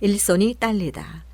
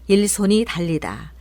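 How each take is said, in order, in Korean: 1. 이 동사는 경음으로 시작합니다. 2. 이 동사는 평음으로 시작합니다. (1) "이제 된소리로 해보겠습니다" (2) "듣기에 어색한 발음들"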